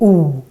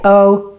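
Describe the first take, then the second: First: The vowel is a tight, rounded 'oo' sound. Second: The vowel is an open English-like 'oh' sound. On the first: The speaker calls it right. "we say ooh" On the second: The speaker calls it wrong. "we don't say O"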